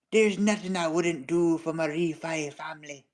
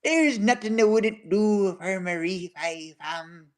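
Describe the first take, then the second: First: Put-on Irish accent. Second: Slow, lightly put-on Irish accent. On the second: Retelling a friend's words in a mild Irish accent. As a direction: quote the friend in a gentle Irish lilt. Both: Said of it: "In the peak Irish accent".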